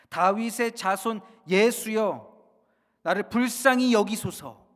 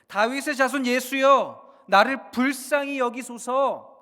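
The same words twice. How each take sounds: First: It is called out at ordinary loudness. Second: It is shouted out much more loudly.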